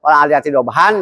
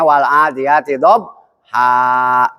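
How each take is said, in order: First: The last word ends with an n sound. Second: The last word ends with a long vowel. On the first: The reading continues without stopping. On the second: The reader stops at this word.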